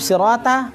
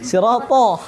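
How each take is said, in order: First: The 't' sound is light and thin. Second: The 't' sound is heavy and thick. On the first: The speaker calls it wrong. "Kenapa sirata?" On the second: The speaker calls it right. "To-nya tebal"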